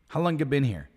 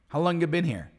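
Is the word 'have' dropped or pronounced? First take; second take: dropped; dropped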